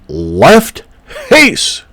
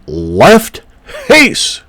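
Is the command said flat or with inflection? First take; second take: inflected; inflected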